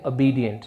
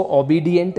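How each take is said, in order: First: "obedient" with a weak uh first, uh-BEE-dient; correct pronunciation. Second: "obedient" opening on a full O, oh-BEE-dient; wrong pronunciation. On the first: Teacher shows learners how to read it, correct pronunciation. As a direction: reduce the first vowel of "obedient" to schwa. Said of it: "इसको पढ़ेंगे obedient". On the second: Teacher shows learners how not to read it, wrong pronunciation. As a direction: give "obedient" a round oh at the front. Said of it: "इसको obedient नहीं पढ़ेंगे". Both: Shown as a demonstration.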